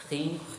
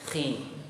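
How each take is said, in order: No difference in how they are said.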